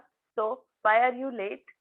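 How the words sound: It is asked in a harsh, angry tone. The asker is angry. "अजून थोडासा हा harsh tone झाला"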